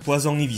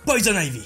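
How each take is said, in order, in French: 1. Le nom est prononcé avec un accent français. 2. Le nom est prononcé avec un accent américain.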